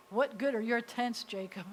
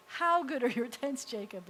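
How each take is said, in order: First: "What good are your tents" as a doubting question; questioning tune. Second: "How" lifted as an admiring exclamation. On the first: Teacher shows the wrong reading, as a challenge. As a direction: ask it like a challenge. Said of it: "It's not like". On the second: Teacher shows the right reading, exclaiming in wonder. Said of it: "supposed to be an exclamation". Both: Shown as a demonstration.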